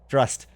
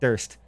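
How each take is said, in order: First: The name begins with a dr sound. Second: The name begins with a plain d sound. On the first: The speaker calls it right. "I've been pronouncing that wrong for years" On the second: The speaker calls it wrong. "It's not even Durst"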